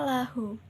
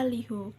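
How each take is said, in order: First: The first vowel is an 'a' sound. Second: The first vowel is an 'i' sound. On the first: The speaker calls it right. "lam dibaca fathah menjadi la" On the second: The speaker calls it wrong. "tidak dibaca"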